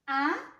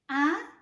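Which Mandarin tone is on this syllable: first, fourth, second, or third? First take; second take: second; second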